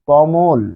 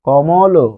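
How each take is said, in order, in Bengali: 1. শব্দটি চূড়ান্ত ব্যঞ্জনে হঠাৎ থেমে যায়। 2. শব্দটি একটি যুক্ত চূড়ান্ত স্বরধ্বনি দিয়ে শেষ হয়। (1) "যখন কমল বলছেন তখন থেমে যাচ্ছেন" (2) "যদি বলতেন কমল, কমল, তখন কিন্তু কমল বললে অ থাকতো"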